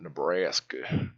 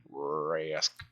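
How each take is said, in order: First: Nebraska drawn out slowly with a heavy R; heavy R accent. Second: Said in the usual way. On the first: Shown as a demonstration. Mocking the Nebraskan R by saying Nebraska slowly. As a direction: stretch Nebraska, leaning on the R. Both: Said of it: "put too much R into a word".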